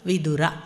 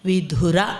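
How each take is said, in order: First: The 'd' sound is plain, without a breath. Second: The 'd' sound is aspirated, with a breath. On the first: The speaker calls it right. "ವಿದುರ ಅನ್ನಬೇಕು" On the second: The speaker calls it wrong. "ವಿಧುರ ಅನ್ನಬಾರ್ದು; ವಿಧುರ ಅಂತ ಮಹಾಪ್ರಾಣ"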